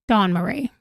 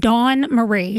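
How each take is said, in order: First: Dawn Marie said as one word, no break; run together. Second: Said in the usual way. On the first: Shown as a demonstration. Explaining to chat, Dawn Marie as one word. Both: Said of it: "all one word".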